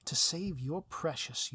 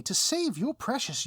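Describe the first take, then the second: First: Slow, lightly menacing villain line; a hint of drawn-out villain relish on "save". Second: Loud, high, exasperated villain restating the terms; hammed-up outrage on "save"; indignant villain. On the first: Villain lays out the terms to the hero, slow and lightly menacing. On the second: Villain repeats the terms to the hero, loud and exasperated.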